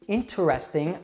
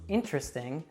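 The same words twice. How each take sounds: First: Every syllable of the word is pronounced. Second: One middle syllable of the word is dropped.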